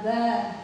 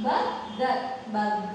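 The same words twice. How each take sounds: First: Said in the usual way. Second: "bug" broken into two parts, as in bur-ger; split into syllables. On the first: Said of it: "Now, read it". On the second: Shown as a demonstration. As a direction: say "bug" as burger with a gap between syllables. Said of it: "So, split it here".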